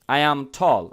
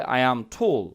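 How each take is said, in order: First: "tall" with an open American "aw"; American pronunciation. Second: "tall" with a rounded British "o"; British pronunciation. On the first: Teacher modelling what "we" say, open-vowelled "tall". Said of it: "আমরা বলি টল". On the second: Teacher showing how the British say it, rounded "tall". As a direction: round the vowel of "tall", close to "tole". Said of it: "ব্রিটিশরা বলে". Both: Shown as a demonstration.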